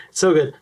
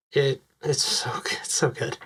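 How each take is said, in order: First: Said in the usual way. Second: Hushed, breath-only praise; awed whisper. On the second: Real, not acted. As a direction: whisper it in real admiration.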